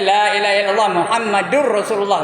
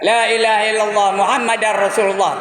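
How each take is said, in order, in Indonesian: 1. Suku kata setelah Muhammad memiliki vokal 'u'. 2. Suku kata setelah Muhammad memiliki vokal 'a'. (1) "Kalau tak ada asyadunya ... bukan dar ya" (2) "Tak betul itu"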